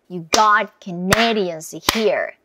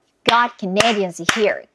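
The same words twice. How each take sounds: First: It is said at a medium pace. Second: It is said at a fast pace.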